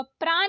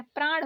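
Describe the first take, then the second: First: प्राण ending in plain न; wrong dental N. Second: प्राण ending in curled-tongue ण; correct retroflex ण. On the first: Teacher showing learners the mistake, dental-N प्राण. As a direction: say प्राण as प्रान. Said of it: "नहीं होता है". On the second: Teacher correcting learners, retroflex प्राण. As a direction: curl back for ण in प्राण. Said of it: "होता है". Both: Shown as a demonstration.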